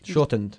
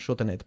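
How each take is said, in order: First: The ending is a plain d, no extra syllable. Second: The ending is said as an extra id syllable. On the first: The speaker calls it right. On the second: The speaker calls it wrong. "not shortened"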